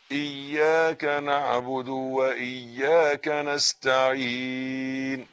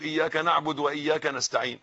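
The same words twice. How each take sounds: First: "إياك نعبد وإياك نستعين" drawn out slowly, each vowel and the doubled ي given full weight; correct slow recitation. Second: "إياك نعبد وإياك نستعين" rattled off fast, the vowels slurred as careless people say it; hurried wrong reading. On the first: Teacher giving students the right version to repeat, slow and careful. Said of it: "تاني، تاني، قول ورايا". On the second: Teacher imitating how many people say it wrong, fast and sloppy. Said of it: "غلط، غلط". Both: Shown as a demonstration.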